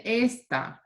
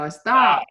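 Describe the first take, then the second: First: "esta" drawn out with the first syllable punched; wrong stress. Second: "Está" with the final TÁ punched hard; stress on ending. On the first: Teacher imitating the student's mistake, esta stressed on the first syllable. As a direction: say esta slowly, stressing ES, not TA. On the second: Teacher confirming the student's retry, Está punched on the ending. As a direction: land firmly on the last syllable of Está. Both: Shown as a demonstration. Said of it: "I want you to punch that in".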